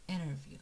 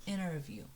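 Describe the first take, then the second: The two takes are said the same way.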